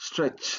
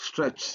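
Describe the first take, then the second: Both takes have the same delivery.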